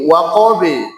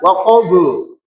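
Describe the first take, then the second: First: The final b releases with an e-like vowel. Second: The final b releases with an u-like vowel. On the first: The speaker calls it right. "condongnya ke imalah kubro" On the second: The speaker calls it wrong. "tidak dibaca waqabu, waqabu, salah"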